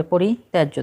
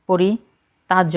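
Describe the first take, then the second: First: "পরিত্যাজ্য" with tya sounded as tae; correct form. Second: "পরিত্যাজ্য" split as pori, tajjo with plain ta; wrong form. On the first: Teacher gives learners the right spelling, correct form. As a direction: say "পরিত্যাজ্য" as pori-tyajjo. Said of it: "হবে পরিত্যাজ্য". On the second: Teacher rejects the misspelling, wrong form. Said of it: "পরিত্যাজ্য হবে না". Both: Shown as a demonstration.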